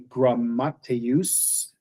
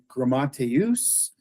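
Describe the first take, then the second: First: The m sound is held long, like a stop. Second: The m sound is short, with no hold. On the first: The word is spelled with a double mu. "double would be grammateus" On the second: The word is spelled with one mu. "a single mu would be grammateus"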